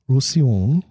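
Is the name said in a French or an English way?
French. The name is said with French-style sounds. "please don't criticize my French accent"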